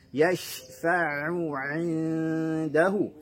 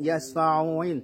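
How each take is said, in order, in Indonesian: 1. Bunyi ain diucapkan dengan jelas dan tegas. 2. Bunyi ain tersamar ke dalam kata. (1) "harus jelas bunyi ainnya" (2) "Jangan sampai menyeret huruf"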